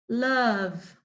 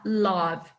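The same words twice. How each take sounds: First: The vowel sounds like an 'a'. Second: The vowel sounds like an 'o'. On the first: The speaker calls it right. "A gente fala love. Love. Porque esse O tem o som do A" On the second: The speaker calls it wrong. "esse som é A, não O. Então a gente não pode falar love"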